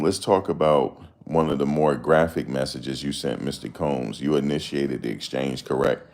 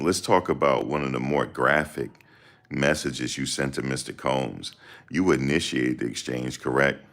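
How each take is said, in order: First: It is read at normal speed. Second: It is read slowly.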